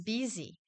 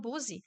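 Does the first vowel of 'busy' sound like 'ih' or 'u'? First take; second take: ih; u. First: The first vowel is an ih sound. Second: The first vowel is a u sound. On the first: The speaker calls it right. "O som do U aqui tem som de I" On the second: The speaker calls it wrong. "muita gente fala busy"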